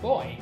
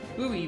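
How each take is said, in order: First: It is said in one syllable, like boy. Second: It is said in two syllables, like boo-ee. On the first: The speaker calls it right. "It is boy, just as in the word buoyant" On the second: The speaker calls it wrong. "as Americans pronounce the word spelled B U O Y, which is a terrible way to pronounce that"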